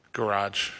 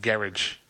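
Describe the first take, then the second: First: "Garage" as "guh-RAHJ", with a hint of a Boston accent; Boston-ish garage. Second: "Garage" as "GARR-idge", stress on the first syllable, falling tune; English garage. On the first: DJ testing his garage, faint Boston sound. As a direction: say "Garage" with the r nearly swallowed, a touch of Boston. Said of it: "almost sounds like a Boston accent". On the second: DJ switching to the English garage, light accent. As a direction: say "Garage" like the British, rhymed with "carriage". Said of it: "sounds like a Boston accent". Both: Shown as a demonstration.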